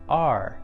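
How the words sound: An open vowel ending in an R sound. "in the North American edition, the sound sounds more like R"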